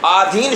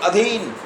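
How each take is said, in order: First: The first vowel is long. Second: The first vowel is short. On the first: The speaker calls it wrong. "आधीन शब्द नहीं" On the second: The speaker calls it right.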